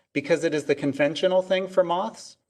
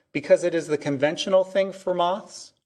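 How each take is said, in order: The two takes are said the same way.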